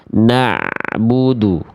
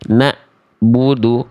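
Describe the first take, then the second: First: The throat sound glides smoothly into 'bu'. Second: A silent gap cuts the sound before 'bu'. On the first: The sound is read as an ain. The speaker calls it right. "tidak boleh ada celah atau jeda hening" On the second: The sound is read as a hamzah, not an ain. The speaker calls it wrong. "Kayak ada jeda hening dulu tuh"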